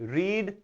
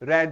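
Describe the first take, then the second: First: The vowel is long, like in 'reed'. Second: The vowel is short, like in 'red'. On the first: It is the present form of the verb. "जो जो है रीड" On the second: It is the past form of the verb. "लेकिन रेड हो जाएगा"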